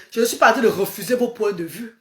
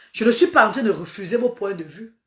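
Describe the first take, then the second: No difference in how they are said.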